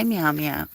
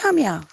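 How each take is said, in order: First: Said in the usual way. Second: Very high, loud pet call; calling a cat. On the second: Real, not acted. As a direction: sing the cat's name up high.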